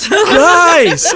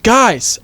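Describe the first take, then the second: First: Very high, drawn-out holler; loud yell. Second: High, raised call for attention; yelled interjection. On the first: Autumn tries to break up the argument, loud yell. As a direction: holler at the top of the voice. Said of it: "Autumn yelled again". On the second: Autumn interrupts the arguing group, moderate yell. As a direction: call out to cut into the argument. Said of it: "Autumn yelled". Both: A narrator's reading.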